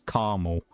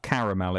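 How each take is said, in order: First: The word is said with two syllables. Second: The word is said with three syllables. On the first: "they basically remove the second A" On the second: "so it's not caramel"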